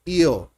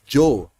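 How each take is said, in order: First: The first sound is like English y. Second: The first sound is like English J.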